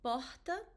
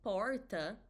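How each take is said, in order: First: The R is pronounced the Rio way. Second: The R is pronounced the speaker's regional way. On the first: "like in Rio" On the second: "that's my letter R from my city, my region"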